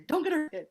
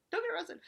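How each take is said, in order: First: Imitating Dave pleading. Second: "Don't get arrested" pitched much higher than before it, soft; a frantic, high-pitched plea, don't push the volume; pleading Dave impression. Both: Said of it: "he was just like".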